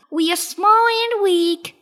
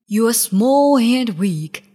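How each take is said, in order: First: High, loud little rabbit voice; Clever Rabbit. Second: Loud, scornful big lion. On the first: Rabbit mocks the drowning lion, high voice. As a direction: throw the taunt back as a small rabbit. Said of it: "said Clever Rabbit". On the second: Lion taunts the jungle animals, loud bullying voice. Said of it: "said the lion". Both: A narrator's reading.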